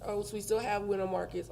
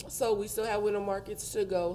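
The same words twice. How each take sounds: First: Numb mouth. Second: Words through a numb mouth. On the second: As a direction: still numb from the dentist. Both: Real, not acted. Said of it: "my mouth is numb".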